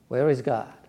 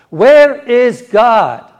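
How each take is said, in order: First: It is asked in a mild, calm voice. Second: It is asked in a very stern voice.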